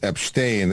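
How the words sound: The name is said with Russian pronunciation. "in Russian he's"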